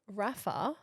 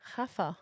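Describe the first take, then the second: First: The name begins with an R sound. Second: The name begins with an H sound.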